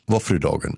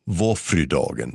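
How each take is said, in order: First: The word is said very fast and run together. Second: The word is said at a normal, careful pace. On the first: It names a day for eating waffles. "if you say that very fast" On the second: It names the day of the Virgin Mary. "That means Our Lady's Day"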